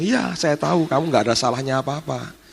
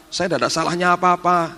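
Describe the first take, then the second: First: Lightly voiced divine reassurance, near the usual pitch; Tuhan. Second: Higher-pitched pleading innocence; imitating frightened servant. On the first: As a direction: answer the pleading servant as an accepting Lord. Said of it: "Terus Tuhan bilang". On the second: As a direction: protest meekly, pitched up, as the scared maid. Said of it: "Dia ngomong gini".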